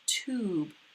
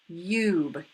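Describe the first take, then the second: First: The vowel sounds like 'oo'. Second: The vowel sounds like 'you'. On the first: The speaker calls it right. "That sounds pretty good to me" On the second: The speaker calls it wrong. "That doesn't sound quite right"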